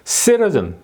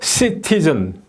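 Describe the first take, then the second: First: The stress falls on the first syllable. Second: The stress falls on the second syllable. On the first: The speaker calls it right. "받침이 여기에 있어주면은 citizen, citizen 이렇게 저절로 액센트가 떨어지는데" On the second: The speaker calls it wrong. "T의 액센트가 저절로 들어가는 거예요"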